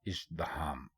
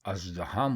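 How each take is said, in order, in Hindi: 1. यह शब्द 'i' स्वर से शुरू होता है। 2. यह शब्द 'a' स्वर से शुरू होता है। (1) "दुरुस्त लफ्ज़ है इज़्दिहाम" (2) "अलिफ के ऊपर ज़बर लगाकर अगर आप बोलेंगे तो ये अज़्दिहाम हो जाएगा, जो कि गलत है"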